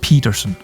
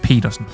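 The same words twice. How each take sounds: First: The name is said the English way. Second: The name is said the Danish way. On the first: The speaker calls it wrong. "He's not called Petersen" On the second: The speaker calls it right. "the Danish way to pronounce them"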